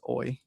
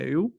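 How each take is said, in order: First: The letters sound like the English word 'oy'. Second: The letters sound like the English word 'you'. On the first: The speaker calls it right. "You pronounce that as oi" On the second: The speaker calls it wrong. "if I'm speaking in English, I have the tendency of call it e- eu"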